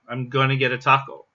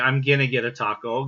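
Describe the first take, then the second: First: The reduced verb has an 'o' vowel, gonna. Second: The reduced verb has an 'i' vowel, ginna. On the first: "you might see it spelled as G O N N A, gonna" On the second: "somebody might want to spell that as G I N N A"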